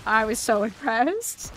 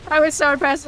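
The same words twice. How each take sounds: First: Said in the usual way. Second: Higher, louder, I was so impressed; excited emphasis. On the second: Shown as a demonstration. Telling viewers about dad's burger, higher and louder with excitement. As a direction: really sell how impressed you were.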